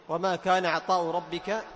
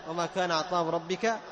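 No difference in how they are said.

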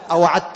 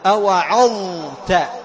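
First: The consonant before t is a plain d. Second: The consonant before t is an emphatic th. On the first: The speaker calls it wrong. "لا تقول أوعدت" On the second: The speaker calls it right. "حكمها البيان والإظهار"

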